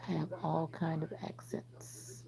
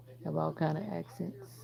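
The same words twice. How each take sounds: First: Slow, soft whisper. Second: Said in the usual way. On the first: Real, not acted. Streamer telling chat about her accents, in a slow whisper. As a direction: whisper it again, slowly and secretly.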